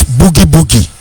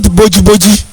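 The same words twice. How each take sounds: First: "boogie boogie" said with a hard g, boo-gee boo-gee; correct English pronunciation. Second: "boji boji" said with a j sound, bo-jee bo-jee; wrong local pronunciation. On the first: Mother correcting her child to "boogie boogie" in English. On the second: Mother quoting the local "boji boji" before correcting it. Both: Retold or imitated. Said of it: "it is not boji boji, it is boogie boogie".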